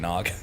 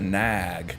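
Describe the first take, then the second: First: The vowel rhymes with 'hog'. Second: The vowel does not rhyme with 'hog'. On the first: This is the ordinary way of saying it. The speaker calls it right. "that's not how you say nog" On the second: This is the local Scranton way of saying it. The speaker calls it wrong. "She's like hog the nag"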